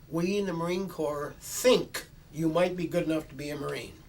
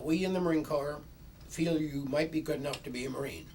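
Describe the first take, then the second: First: It is said a little louder. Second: It is said at normal volume.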